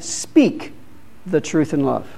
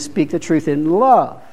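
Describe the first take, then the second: First: The word speak carries the main stress. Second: The word love carries the main stress. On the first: The truth should be spoken, not kept silent. "We should speak it" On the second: The truth should be shared lovingly. "and then speak the truth in love"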